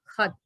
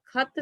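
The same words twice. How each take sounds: First: It begins with a raspy fricative kh sound. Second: It begins with an aspirated stop k sound. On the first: The speaker calls it right. "इस ख के नीचे नुक्ता लगाएंगे, यानी खत" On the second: The speaker calls it wrong. "खत सही नहीं है"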